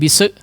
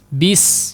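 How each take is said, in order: First: The s bounces off with an added vowel. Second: The s hisses on with a steady airflow. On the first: The speaker calls it wrong. "jangan dipantulin bise ya, bise jangan" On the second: The speaker calls it right. "mengalir, ada udara yang mengalir"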